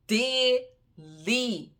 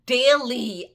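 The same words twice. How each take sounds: First: Daily stretched out long and falling, less loud; drawn-out daily. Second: Daily punched much louder on a falling tune; loud emphatic daily. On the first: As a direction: drag out Daily wearily. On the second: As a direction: slam the word Daily down in exasperation. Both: Real, not acted. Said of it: "slapping me in my face daily".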